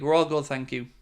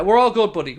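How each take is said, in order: First: Said in the usual way. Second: Upbeat, higher and louder greeting back; cheery reply. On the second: Real, not acted. Streamer answering a viewer's greeting, loud and upbeat.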